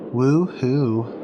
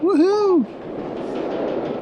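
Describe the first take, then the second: First: The cheer sounds flat and unenthusiastic. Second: The cheer sounds lively and enthusiastic.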